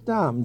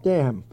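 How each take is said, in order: First: The vowel is an open 'ah' sound. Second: The vowel is a short 'a' as in 'cat'. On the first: This is how the family's home country says it. "the Luxembourg pronunciation is Dom, D-A-H-M" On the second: This is how some other people say it. "Or someone pronounce it Dam"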